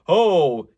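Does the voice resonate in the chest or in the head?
chest. It resonates low, in the chest. "you might feel some resonance down here"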